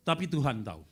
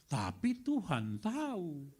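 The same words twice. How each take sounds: First: Said in the usual way. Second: Tapi Tuhan tahu drawn out slowly, each word weighted; slow, weighty. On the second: Shown as a demonstration. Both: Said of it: "repeated refrain".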